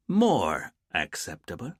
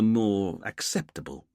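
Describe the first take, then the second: First: "More" leaned on, slow and drawn out, rising at the end; leaning on more. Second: Said in the usual way. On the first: Acted. Dwayne hinting to Richard that it's all relative, stress on "More". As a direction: hit "More" hard and slow so it sounds only relative. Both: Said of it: "leaned on the word more".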